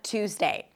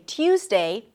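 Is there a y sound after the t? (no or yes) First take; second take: no; yes. First: No y sound follows the t. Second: A y sound follows the t. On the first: "people don't put the yes sound in the United States" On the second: "They don't say Tuesday"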